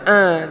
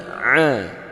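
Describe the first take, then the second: First: The vowel is plain, without throat constriction. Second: The vowel is made deep in the throat. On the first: The speaker calls it wrong. "jangan a" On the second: The speaker calls it right. "tapi a, a di tengah tenggorokan"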